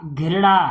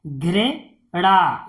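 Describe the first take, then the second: First: Said in the usual way. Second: "घृणा" slowly, in two separated parts; syllable by syllable. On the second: Shown as a demonstration. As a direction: split "घृणा" with a pause inside. Teacher sounds out, then blends. ("घृणा" को तोड़कर पढ़ना)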